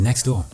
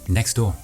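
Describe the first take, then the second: The two takes are said the same way.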